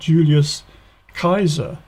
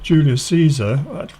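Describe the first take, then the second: First: Caesar begins with a hard K sound. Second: Caesar begins with a soft S sound. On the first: The speaker calls it right. "It's a hard C, not a soft C. It should be more like a K" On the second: The speaker calls it wrong. "It shouldn't be sounded like an S, as we do in English"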